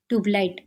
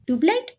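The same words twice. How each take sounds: First: "tubelight" with a falling end; matter-of-fact jibe. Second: "tubelight" higher, rising sharply at the end; incredulous question. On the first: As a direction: drop "tubelight" as a settled verdict. Teasing name, then echoed back. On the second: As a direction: echo "tubelight" back as a puzzled question. Echoes the nickname as question. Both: A narrator's reading.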